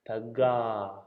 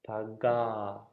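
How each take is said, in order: First: The middle consonant is a hard g. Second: The same.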